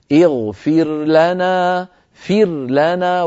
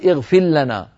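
First: اغفر لنا with the ra of اغفر sounded before the lam, very slow; slow اغفر لنا with a clear ra. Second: اغفر لنا with the ra swallowed into a doubled lam; wrong example: اغفر لنا with a doubled lam; merged ra into lam. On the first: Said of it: "فتظهر الراء عند اللام". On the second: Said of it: "ولا تقول". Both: Shown as a demonstration.

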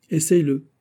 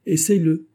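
First: Commanding. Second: Higher, louder repeated order; insist, don't ask twice; insistent command. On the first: Lord ordering the girl. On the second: Lord insisting the girl try it on, commanding. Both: Acted.

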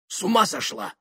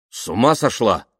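First: Very high exclamation at ordinary volume; shocked outburst. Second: Higher, louder, but held-back exclamation; restrained shout. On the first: Married man hears second-wife offer, shocked outburst. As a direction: exclaim in high-pitched disbelief. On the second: Man refuses woman asking to lie beside him, restrained shout. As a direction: cry out without really yelling. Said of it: "негромко крикнул он". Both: Acted.

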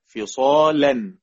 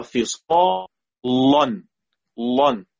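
First: "فصالا" drawn out slowly with a thin, light l; light lam. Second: "لن" with a thick, dark l; heavy lam. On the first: Teacher shows the second reading, light lam. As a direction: keep the l of "فصالا" light, vowel fronted. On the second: Teacher demonstrates a Quran reading, heavy lam. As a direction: say "لن" with the tongue back, heavy l and backed vowel. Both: Shown as a demonstration. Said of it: "وجهين".

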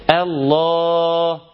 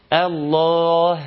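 First: Long الله fading on the vowel without any h; final ha dropped. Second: Long الله closed with an audible breathed h; final ha pronounced. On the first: Teacher repeating the example, final ha left silent. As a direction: hold الله open, omitting the closing h. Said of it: "أنا ما نطقتش حرف الهاء". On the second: Teacher showing the wanted way, final ha sounded. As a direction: finish الله on a clear, effortful h. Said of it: "إنما عاوز أنطقه". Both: Shown as a demonstration.

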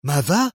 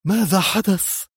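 First: Short rising stunned "ماذا"; "ماذا" flung up in alarm; shocked yell. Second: Higher anxious "ماذا حدث"; deeply worried question. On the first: Leader hearing bad news by phone, stunned cry. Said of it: "وهو يصرخ". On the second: Zosha asking her leader what happened, anxious. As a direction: ask with alarm in the voice. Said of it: "فسألته زوشا بقلق عارم". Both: A narrator's reading.

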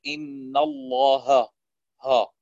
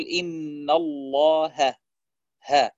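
First: الله ending in a dark, back, rounded ها; heavy haa. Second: الله with heavy lam, then a thin fronted ها; light haa. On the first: Teacher showing the mistake, الله with a heavy haa. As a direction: keep the ha of الله as heavy as its lam. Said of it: "بدل أن يقول". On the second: Teacher showing correct recitation, الله with a light haa. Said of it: "الهاء يجب أن يكون مرقق". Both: Shown as a demonstration.

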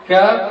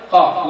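First: "كاف" with a front k, pitched higher; kaf sound. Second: "قاف" with a back uvular q; qaf sound. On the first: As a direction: demonstrate the light k of "كاف". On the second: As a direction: demonstrate the heavy q of "قاف". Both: Shown as a demonstration. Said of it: "فرق بين الكاف والقاف".

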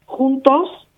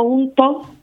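First: Juntos with a firm Castilian jota and final s; standard Castilian pronunciation. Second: Juntos with an Andalusian aspirated h and the final s dropped, hunto; Andalusian pronunciation. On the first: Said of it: "estoy hablando castellano". (juntos en castellano estándar) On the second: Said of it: "castellano malamente". (juntos con acento andaluz, aspirado) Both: Shown as a demonstration.

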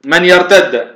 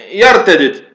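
First: "يرتد" said with the two dals merged into one doubled dal, yartadd; "يرتد" as one stressed geminate, no vowel between the dals; merged double dal. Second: "يرتدد" with both dals pronounced apart, yartadid; "يرتدد" split open, a vowel between the two dals; separated dals. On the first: Teacher reading the Quran word to students, merged dals. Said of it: "يرتد بالإدغام". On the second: Teacher contrasting the other Quran reading, dals kept apart. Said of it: "إذن هنا بفك الإدغام". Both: Shown as a demonstration.

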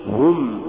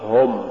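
First: هم with a pure u, as hum; light damma. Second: هم thickened to hom; heavy damma error. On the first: Tajweed teacher giving the form to say, light damma. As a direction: keep هم light with rounded u. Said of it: "قل". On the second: Tajweed teacher showing what not to say, heavy damma. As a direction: darken the vowel of هم to o. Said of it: "ولا تقل". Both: Shown as a demonstration.

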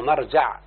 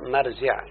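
First: مرجع said as marjaʕ with open a vowels; expected form. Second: مرجع said as marjiʕ with kasra on the jim; form heard from Arabs. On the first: Teacher showing students the expected form مرجع, marjaʕ with fatha. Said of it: "فالمفروض يقول إيه؟". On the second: Teacher telling students the Arabs said مرجع, marjiʕ with kasra. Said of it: "سمعت من العرب". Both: Shown as a demonstration.

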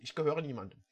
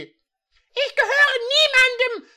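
First: Softly repeating the line, no acting; plain soft repetition; quiet re-quote. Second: High, loud and slow, every word firm; hammed-up high defiant declaration. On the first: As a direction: murmur it back to yourself. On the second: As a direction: declare it with unshakable resolve. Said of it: "mit fester Stimme".

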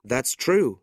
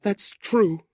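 First: Lightly voiced young man, a little raised; proud young nephew. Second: High, grieving woman's voice; sorrowful widow. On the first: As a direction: concede it firmly, as a young man. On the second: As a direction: concede it sadly, pitched high. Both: A narrator's reading.

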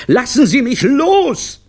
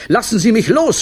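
First: Drawn-out, very high, loud scream; desperate scream. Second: High, loud cry, rising at the end; screaming. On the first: Clown dangling in the air, long desperate scream. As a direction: scream it slowly, falling at the end. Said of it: "zappelte verzweifelt in der Luft". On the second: Clown held up by the director, high scream. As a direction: cry out to be released. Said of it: "schrie Olivio". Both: A narrator's reading.

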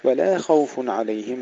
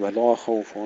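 First: "ولا خوف" with thin لا, full خ; light lam, heavy kha. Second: "ولا خوف" with thick, dark لا; wrong, heavy lam. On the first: Teacher shows the correct reading, light lam. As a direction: keep "لا" light before thickening خ. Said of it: "نرقق اللام ونفخم الخاء". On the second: Teacher shows what we do not say, thickened lam. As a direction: darken "لا" to match the خ in "خوف". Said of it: "ولا نقول". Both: Shown as a demonstration.

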